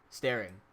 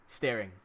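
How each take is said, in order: Both takes have the same delivery.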